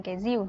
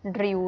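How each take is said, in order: First: RÌU said with a Z sound, like "zìu"; RÌU with a buzzing Z onset; Northern Vietnamese pronunciation. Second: RÌU with a strong rolled R; RÌU as spelt, with R instead of Z; heavy R. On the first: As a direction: say the R of RÌU as Z, Hanoi-style. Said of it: "cô là người miền Bắc nên là cô sẽ nói thành". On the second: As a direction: roll the R at the start of RÌU. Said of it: "nó sẽ viết là chữ R nặng". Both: Shown as a demonstration.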